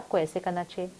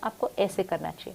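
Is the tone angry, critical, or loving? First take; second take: loving; critical. First: It is said in a warm, loving tone. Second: It is said in a harsh, critical tone. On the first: The speaker cares about the listener. "I can say that with lot of love" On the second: The speaker looks down on the listener. "I can say that with criticism"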